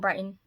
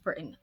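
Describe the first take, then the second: First: The first syllable rhymes with 'bite'. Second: The first syllable rhymes with 'bit'. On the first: The speaker calls it wrong. "I've been saying Brighton" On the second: The speaker calls it right. "It's Britain"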